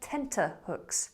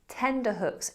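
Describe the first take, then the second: First: The middle consonant is a T sound. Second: The middle consonant is a D sound. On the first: The speaker calls it right. "instead of tenterhooks" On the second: The speaker calls it wrong. "many people mispronounce this word as tender hooks"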